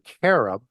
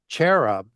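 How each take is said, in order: First: The word begins with a 'k' sound. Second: The word begins with a 'ch' sound. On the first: This is the ancient way of saying it. "the ancient way of pronouncing it is K" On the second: This is the modern way of saying it. "we pronounce it as cherub"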